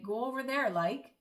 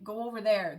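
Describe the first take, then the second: First: Irish like at the end. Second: Said in the usual way. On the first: Shown as a demonstration. Showing how the Irish add like, Irish sentence-final like. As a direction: Go over there said higher, like tagged on with a rise. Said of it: "they would say". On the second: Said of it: "where we would say".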